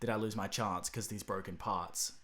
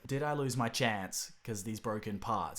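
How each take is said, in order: First: It is said in an Australian accent. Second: It is said in an American accent.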